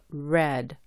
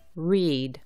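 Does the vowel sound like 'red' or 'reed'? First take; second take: red; reed. First: The vowel is short, as in 'red'. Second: The vowel is long, as in 'reed'. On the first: It is the past form. "Cuando está en el tiempo pasado afirmativo o el participio pasado se pronuncia read" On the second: It is the present or base form. "se pronuncia read cuando está en la forma infinitiva"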